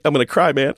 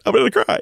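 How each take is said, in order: First: Said in the usual way. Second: A touch of emotion, jumping much higher with a rising end; choked-up repeat. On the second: Real, not acted. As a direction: let the voice crack up high as it gets to you. Moved by friend's story.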